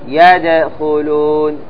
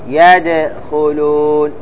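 Both takes have the same delivery.

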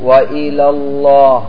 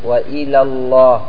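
The two takes are said the same way.

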